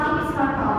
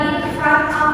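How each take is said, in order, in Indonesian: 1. Konsonan akhir menyambung ke vokal berikutnya. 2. Kata-katanya diucapkan terpisah. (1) "bacanya ditubruk" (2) "Bukan in front of"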